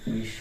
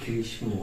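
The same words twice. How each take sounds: First: The sh sound is doubled with no m sound. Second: An m sound is pronounced after the sh. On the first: The speaker calls it right. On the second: The speaker calls it wrong.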